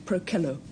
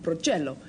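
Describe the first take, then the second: First: The word is pronounced the Latin way. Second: The word is pronounced the Italian way. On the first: The speaker calls it right. "but in fact it's Procello" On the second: The speaker calls it wrong. "the more slovenly Italian readers later on would probably call it Procello"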